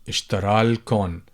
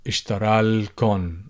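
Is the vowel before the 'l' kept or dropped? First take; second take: dropped; dropped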